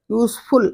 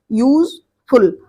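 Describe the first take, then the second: First: Said in the usual way. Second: useful drawn out slowly, both syllables clear; teacher modelling useful slowly for the class; slow clear model word. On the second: Shown as a demonstration. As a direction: stretch out useful so each syllable is heard. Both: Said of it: "ये टू syllable का है".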